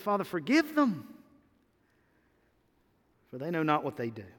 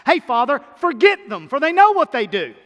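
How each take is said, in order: First: Said in the usual way. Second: High and loud, a flippant wrong version; mock careless prayer. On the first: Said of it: "He said". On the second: Preacher mocking a wrong prayer, loud and high. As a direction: toss it off loudly like a careless request. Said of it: "He didn't say that".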